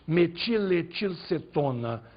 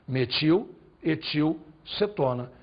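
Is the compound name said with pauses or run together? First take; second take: run together; paused. First: The parts are run together without pauses. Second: Short pauses separate each part of the name. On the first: The name is confusing to listeners. The speaker calls it wrong. "se você quiser atrapalhar os outros, você diz metiletilcetona, só serve para atrapalhar" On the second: Everyone understands what is meant. The speaker calls it right. "As pausas ajudam muito"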